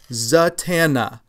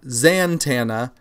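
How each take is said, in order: First: There is no n sound before the t. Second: An n sound comes before the t. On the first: The speaker calls it right. "There is no N there before the T" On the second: The speaker calls it wrong. "not Zatanna"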